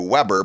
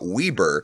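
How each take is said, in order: First: Weber is said like the barbecue brand name. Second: Weber is said the way locals in Utah say it. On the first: "like the barbecue Weber" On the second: "but it's pronounced in Utah Weber"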